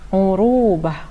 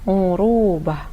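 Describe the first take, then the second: No difference in how they are said.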